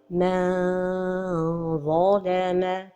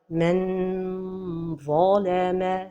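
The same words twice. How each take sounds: First: The tongue drops away, stretching it like a vowel. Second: The tongue touches the palate, giving a clear n. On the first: "La deuxième erreur est de trop éloigner la langue du palais supérieur" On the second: "La première erreur est de coller le bout de la langue au palais supérieur"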